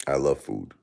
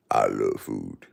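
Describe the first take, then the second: First: Said in the usual way. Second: I love food said in a much lower put-on voice. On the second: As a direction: drop the voice low on I love food. Repeats line in new voice.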